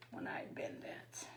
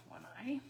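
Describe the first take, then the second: First: Whispered to herself while working; unvoiced murmur under the breath. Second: Said in the usual way. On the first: Real, not acted.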